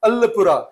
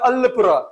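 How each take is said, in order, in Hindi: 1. अंतिम व्यंजन r ध्वनि है। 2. अंतिम व्यंजन r ध्वनि है।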